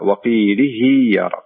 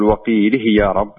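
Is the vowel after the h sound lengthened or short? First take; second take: lengthened; short. First: The vowel after the h is lengthened. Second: The vowel after the h is short. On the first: The speaker calls it right. "أنها تمد مقدار حركتين" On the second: The speaker calls it wrong. "يعني لا تقول وقيله يا رب"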